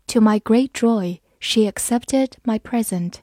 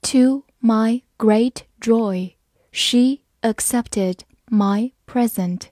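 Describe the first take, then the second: First: Said in the usual way. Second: Slow, careful read-aloud; slow teacher demo. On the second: Shown as a demonstration. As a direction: read it slowly word by word. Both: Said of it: "好，慢慢来读".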